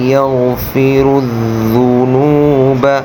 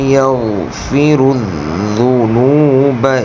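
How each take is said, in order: Both takes have the same delivery.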